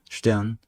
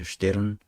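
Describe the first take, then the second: First: The R is vocalized, sounding like 'shte-an'. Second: The R is sounded, ending in 'shte-reun'. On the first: This is how Germans actually say it. The speaker calls it right. "독일 사람들의 본래 그 표준 발음은 슈테안이라고 합니다" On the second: This follows the written spelling. The speaker calls it wrong. "우리가 표기할 땐 슈테른이라고 하죠"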